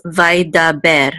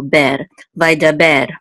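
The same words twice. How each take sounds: First: Vai Da Ber, said slowly, one syllable at a time; syllables spelled out. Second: Vai Da Ber with the weight on the final Ber; stress on Ber. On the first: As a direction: break Vai Da Ber into three even syllables. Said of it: "So it's three syllables". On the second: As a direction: lean on Ber at the end of Vai Da Ber. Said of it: "the accent goes on the last syllable". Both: Shown as a demonstration.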